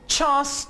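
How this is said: It is said in a British English accent. "British English में आप इसे चांस pronounce करेंगे"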